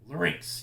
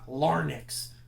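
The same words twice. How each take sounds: First: The syllables are slurred smoothly together. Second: The syllables are said distinctly and separately. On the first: The speaker calls it right. "Kind of slur it together" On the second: The speaker calls it wrong. "It's not larynx"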